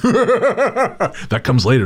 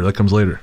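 First: Squeaky high laugh through words. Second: Said in the usual way. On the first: Real, not acted. Laughing, then repeated plain.

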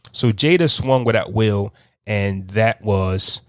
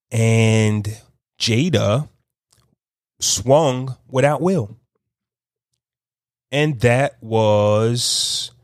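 First: Said in the usual way. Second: Very slow, with long pauses between phrases; talking slow. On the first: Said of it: "'cause I had it all together". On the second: Real, not acted. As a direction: piece it together slowly, stretching words and pausing. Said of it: "I'm, I'm talking slow".

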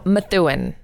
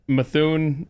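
First: "Methuen" as muh-THOO-in; corrected pronunciation. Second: "Methuen" squashed to muh-THOON; blown pronunciation. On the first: Shown as a demonstration. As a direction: give "Methuen" three syllables, muh-THOO-in. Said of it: "No, no". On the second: Real, not acted. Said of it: "I blew that one".

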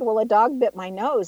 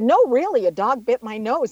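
First: Said in the usual way. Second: Retold protest, hitting "really" to be believed; insistent correction. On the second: Insists that it literally happened.

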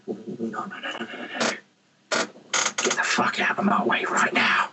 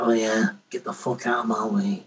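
First: Menacing whisper, all breath; whispered threat. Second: Low-pitched, deliberately bad Scottish accent. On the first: Acted. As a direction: warn them off in a fierce whisper. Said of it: "or I'm like". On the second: Shown as a demonstration. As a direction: put on a hammy Scottish accent. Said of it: "put on the really bad Scottish accent".

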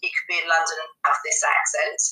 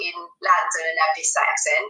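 First: Another London accent, slightly lower; lower-pitched London English. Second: First of two contrasting London accents; London English, demonstrated. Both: Shown as a demonstration.

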